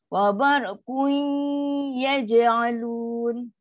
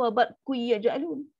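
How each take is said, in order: First: The n partly merges into y with nasalization. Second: The n disappears completely into the following y. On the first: The speaker calls it right. "fifty percent dengung, fifty percent huruf yang dijumpa tu" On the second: The speaker calls it wrong. "masuk one hundred percent ... Pun tak boleh nak bunyi macam tu"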